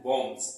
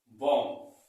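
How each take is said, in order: First: बॉम्ब्स with an s on the end; lower, falling बॉम्ब्स with final s; common mispronunciation. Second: बॉम्ब with silent final b; correct pronunciation. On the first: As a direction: say बॉम्ब्स firmly as the mistaken form, ending "ms". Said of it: "But ऐसा नहीं है". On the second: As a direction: say बॉम्ब as "bom", closing on m. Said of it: "इसको बोलते हैं बॉम्ब". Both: Shown as a demonstration.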